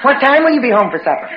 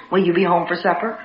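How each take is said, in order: First: Brisk, higher, pressing question; insistent asking. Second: Mild, softer supper-time question; gentle asking. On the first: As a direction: press for an answer, quickly. Escalating supper question, more insistent take. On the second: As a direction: ask it casually, without pressing. Escalating supper question, first gentle take. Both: Retold or imitated.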